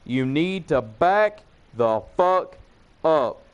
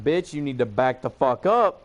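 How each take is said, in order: First: Slow, higher, every word of "back the fuck up" punched separately; slow emphatic warning. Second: Retold warning at an ordinary pace; firm warning. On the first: Retold or imitated. Him repeating it to the woman in his face, "back the fuck up" slow and word by word. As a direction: pause before a hard, separate "up". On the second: Him to the woman up in his face, firm warning in one run. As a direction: re-enact telling someone to back off.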